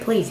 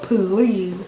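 First: It is said in the speaker's ordinary voice. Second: It is said in an imitated comedic voice. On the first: "He didn't write please" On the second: "I read it in his voice"

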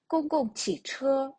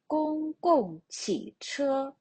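First: It is said quickly with the last syllable stressed. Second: It is said slowly with every tone clear. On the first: "спробуємо швидше. «ч» протягнуто довше, більш наголошено" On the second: "спочатку прочитаємо повільно"

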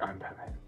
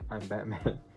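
First: It is said in a put-on character voice. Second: It is said in a plain, normal voice. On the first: This is how the other versions sound. "instead of going like" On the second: This is how this movie's version sounds. "He's just like"

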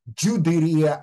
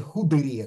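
First: The word begins with a 'dj' sound. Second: The word begins with an 'h' sound. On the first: This is the older Ladino pronunciation. "в Ладино все еще джудерия" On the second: This is the modern Spanish pronunciation. "как в современном испанском"

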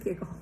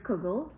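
First: The word is in the Hasidic Yiddish pronunciation. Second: The word is in the standard, non-Hasidic pronunciation. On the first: It usually refers to the grated potato version of the dish. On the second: It usually refers to the noodle version of the dish. "people who say Kugel mean usually the noodle version"

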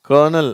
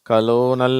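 First: It is said as two syllables, ker-nel. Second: It is said as three syllables, kuh-lo-nel. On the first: The speaker calls it right. "இது கர்னல், அதுதான் correct" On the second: The speaker calls it wrong. "கலோனல் அப்படின்லாம் படிக்கிறாங்க. அது தப்பு"

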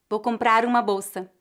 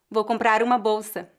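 No difference in how they are said.

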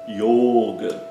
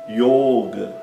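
The two takes are said the same way.

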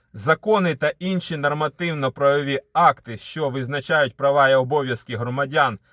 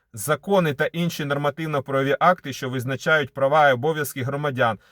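Both takes have the same delivery.

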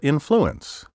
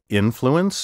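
First: The stress is shifted to another syllable. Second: The stress is on the traditional syllable. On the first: The speaker calls it wrong. "so many speakers now misplace the accent" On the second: The speaker calls it right. "my first pronunciation of each word was the proper one"

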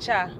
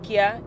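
First: The syllable begins with a ch sound. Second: The syllable begins with a k sound. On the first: The speaker calls it right. "it is Cha" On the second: The speaker calls it wrong. "any pronunciation of K-Y-A is not Kia"

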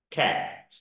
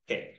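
First: The vowel is said with the mouth wide open. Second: The vowel is said with the mouth half open. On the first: The speaker calls it right. "如果我们选第一个音节啊，第一个音符啊" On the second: The speaker calls it wrong. "第二个"

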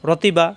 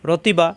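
No difference in how they are said.

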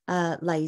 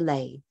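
First: The vowel sounds like 'lie'. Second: The vowel sounds like 'lay'. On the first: "I've got in brackets Lai Si" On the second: "or some people say Lei"

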